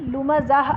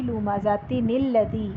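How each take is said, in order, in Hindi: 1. शब्द 'ah' पर खत्म होता है और रुक जाता है। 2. शब्द 'tin' पर खत्म होता है और आगे जुड़ता है। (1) "अगर मैं यहाँ वक्फ कर रही हूँ तो फिर ये नून पढ़ा ही नहीं जाएगा" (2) "इनको मिला के पढ़ना चाह रही हूँ तो मैं पढ़ूंगी"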